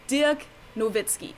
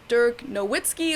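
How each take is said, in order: First: The name is pronounced the German way. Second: The name is pronounced the American way. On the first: "in German we call him" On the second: "Americans like to refer to him as"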